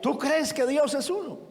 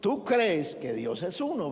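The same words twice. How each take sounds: First: It is said as a question, rising. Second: It is said as a statement, falling.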